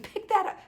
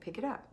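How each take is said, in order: First: It is said in an angry, exasperated tone. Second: It is said firmly but calmly and kindly.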